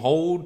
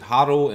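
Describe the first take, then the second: First: It is said like the word hold. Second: It is said with two syllables, like hoddle. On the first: The speaker calls it right. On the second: The speaker calls it wrong.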